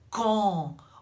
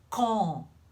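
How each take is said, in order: First: The vowel is rounded and closed. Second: The same.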